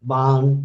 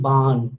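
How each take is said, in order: No difference in how they are said.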